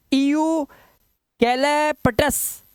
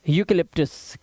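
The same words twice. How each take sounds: First: ईयू कैलेपटस sounded out in slow, high chunks, ee-yoo kai-le-pa-tas; slow, higher-pitched wrong reading of ईयू कैलेपटस; beginner's misreading. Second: यूकेलिप्टस as one word, starting yoo; teacher's model यूकेलिप्टस with a yoo start; correct pronunciation. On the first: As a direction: read ईयू कैलेपटस like a new learner, letter by letter. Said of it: "नया बच्चा तो ऐसे ही पढ़ेगा". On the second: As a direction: say यूकेलिप्टस smoothly, lower, yoo-ka-lip-tus. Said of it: "लेकिन है क्या?". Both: Shown as a demonstration.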